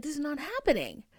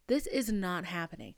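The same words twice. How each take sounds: First: "This is not happening" raised and quick, insistent; insistent refusal. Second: Said in the usual way. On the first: Retold or imitated. Refusing the Prius deal, raised and insistent. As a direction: fire it off, higher, insisting. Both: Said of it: "I'm like".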